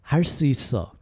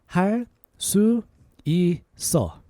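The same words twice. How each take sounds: First: It is said a little faster. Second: It is said at a normal pace.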